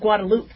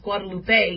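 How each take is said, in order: First: The name ends without an 'a' vowel sound. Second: The name ends with an 'a' vowel sound. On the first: "people are pronouncing it Guadeloupe" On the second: "You make the an A sound at the end"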